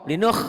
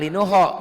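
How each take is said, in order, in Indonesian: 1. Berakhir pada konsonan tenggorokan yang kasar. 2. Ditambahkan vokal setelah bunyi terakhir. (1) "kayak ngorok bu" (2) "jangan linuho"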